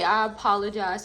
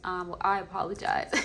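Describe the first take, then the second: First: A lightly prim, correct-sounding "I apologize"; playing at being proper over a plain apology; mock proper apology. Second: Said in the usual way. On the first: Reader corrects herself to viewers, mock proper apology. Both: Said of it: "I don't know why I'm talking like that".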